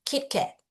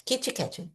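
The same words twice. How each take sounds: First: "Kit Kat" with the T stopped in the throat; held T. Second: "Kit Kat" as kitchi ketchi; Brazilian Kit Kat. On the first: Teacher modelling unreleased T in "Kit Kat". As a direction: stop the T of "Kit Kat" without releasing it. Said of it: "Eu falo, mas ele fica aqui". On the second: Teacher imitating how Brazilians say "Kit Kat". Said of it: "a gente fala Kit Kat". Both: Shown as a demonstration.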